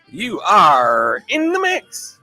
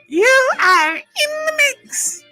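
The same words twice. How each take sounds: First: It is said in a normal voice. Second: It is said in a high, modulated voice.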